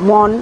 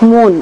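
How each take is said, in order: First: The first vowel is an open 'aw' sound. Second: The first vowel is a closed 'o' sound. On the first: "মন না বলে" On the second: "বলি মন"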